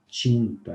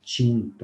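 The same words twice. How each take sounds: First: The t sounds close to 'ch'. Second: The t sounds close to 'ch'.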